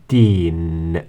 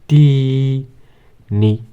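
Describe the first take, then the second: First: The word ends on the n sound. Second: The word ends with a short i vowel. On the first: "the kasra here of course becomes sukun in the pronunciation" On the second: "So we put الشكل"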